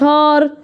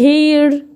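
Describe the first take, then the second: First: The vowel sounds like 'ah' before the r. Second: The vowel sounds like 'ay' before the r. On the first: The speaker calls it wrong. "ما قلتش هار" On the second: The speaker calls it right. "هنا ليه هير"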